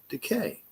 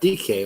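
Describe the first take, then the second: First: It sounds like one ordinary word, decay. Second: It sounds like the two letters D and K. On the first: The speaker calls it right. "but decay" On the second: The speaker calls it wrong. "Not D K like Metcalf"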